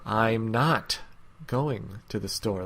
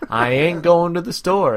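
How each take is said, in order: First: It is said in a tense, stiff way. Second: It is said in a sassy, cheeky way.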